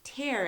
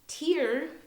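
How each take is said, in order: First: It is said as the word meaning rip. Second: It is said as the word for eye water. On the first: It means to rip. "another way to say this word" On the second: It names water from the eyes. "Tear is a noun"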